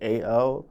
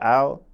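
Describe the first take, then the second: First: The name is spelled out as two letters. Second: The name is said as one short word. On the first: The speaker calls it wrong. "a lot of people they'll pronounce it as A L" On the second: The speaker calls it right. "instead of Al"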